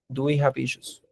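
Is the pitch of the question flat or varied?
flat. The question is read on a flat pitch. The speaker calls it wrong. "no lo estoy leyendo así plano"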